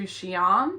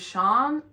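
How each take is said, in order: First: The name is said as two syllables. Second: The name is said as one syllable. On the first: The speaker calls it right. "Sorry, we're going up to Xi'an" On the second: The speaker calls it wrong. "My mum was saying Shan or something"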